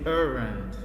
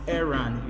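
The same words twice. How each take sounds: First: The first vowel sounds like 'er'. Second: The first vowel sounds like 'air'. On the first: The speaker calls it wrong. "You don't say errand" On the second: The speaker calls it right. "you notice that it's pronounced errand"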